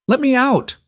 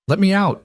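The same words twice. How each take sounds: First: Much higher, louder desperate demand; insist, near yelling. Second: High, frightened shaky plea; shaking voice. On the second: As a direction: voice trembling with fear. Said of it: "her voice shaking". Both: A narrator's reading.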